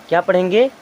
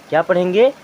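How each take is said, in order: No difference in how they are said.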